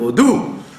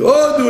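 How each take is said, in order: First: The stress is on the second syllable. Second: The stress is on the first syllable. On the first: It means to praise God. The speaker calls it right. "Il faut dire au doux" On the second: It says the turkey is for God. The speaker calls it wrong. "il faut pas dire comme les Chazanim"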